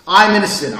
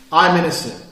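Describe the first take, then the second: First: Louder. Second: Said in the usual way. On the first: Shown as a demonstration. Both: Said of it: "They're different things".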